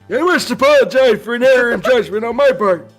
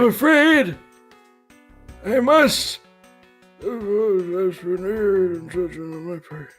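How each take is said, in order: First: It is said at a louder volume. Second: It is said at a quieter volume.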